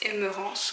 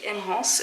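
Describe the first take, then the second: First: The middle vowel is pronounced, giving three syllables. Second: The middle vowel is dropped, giving two syllables. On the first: Some other people say it this way. "il y en a qui le prononcent Emerance" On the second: This is how the speaker personally says it. "moi je dis Emrance"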